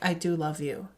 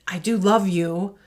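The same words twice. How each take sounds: First: It is said in a flat monotone. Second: It is said warmly, with lively pitch.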